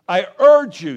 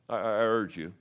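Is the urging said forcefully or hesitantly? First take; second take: forcefully; hesitantly. First: It is said strongly, with firm insistence. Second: It is said weakly, with hesitation.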